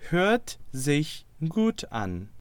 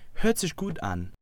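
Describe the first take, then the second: First: It is said at a normal pace. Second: It is said a little faster.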